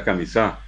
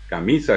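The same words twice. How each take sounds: First: "camisá" stressed on the last syllable; Guaraní stress on the end of "camisá"; final-syllable stress. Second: "camisa" stressed on the middle syllable; Spanish stress on MI in "camisa"; penultimate stress. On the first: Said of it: "El guaraní es un idioma de sílabas agudas". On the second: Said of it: "tienen acentos llanos". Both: Shown as a demonstration.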